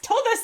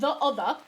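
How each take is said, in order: First: The word 'the' is shortened to a t-sound. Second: The word 'the' is said in full. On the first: The speaker calls it right. "That is the correct way to say it" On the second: The speaker calls it wrong. "not the other"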